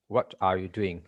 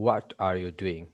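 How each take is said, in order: Both takes have the same delivery.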